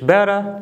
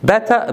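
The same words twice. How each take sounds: First: The word is said with an American accent. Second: The word is said with a British accent. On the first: "better American English" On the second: "better British English"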